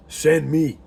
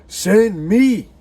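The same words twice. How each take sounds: First: Said in the usual way. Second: Higher, louder cry of send me; rising call. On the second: Shown as a demonstration. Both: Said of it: "Whom shall I send?".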